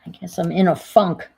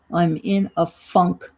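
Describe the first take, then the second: First: Said in the usual way. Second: "I'm in a funk" said slowly, leaning on "funk"; lingering on funk. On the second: Shown as a demonstration. Reminding viewers of the old word, slow with stress on "funk". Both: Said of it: "You remember that word".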